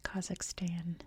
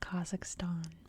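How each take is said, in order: First: It is said with an American pronunciation. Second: It is said with a non-American pronunciation. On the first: "in American English we say Kazakhstan" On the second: "not Kazakhstan"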